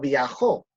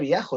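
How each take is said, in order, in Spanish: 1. La tónica está en la última sílaba. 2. La tónica está en la primera sílaba. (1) "si tuviese la tilde" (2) "Como en este caso no tiene tilde la O"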